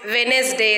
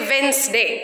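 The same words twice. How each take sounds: First: The d sound in the middle is pronounced. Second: The d sound in the middle is silent. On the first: The speaker calls it wrong. "We can't say Wednesday or Wed Wednesday like that" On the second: The speaker calls it right. "So D is silent here"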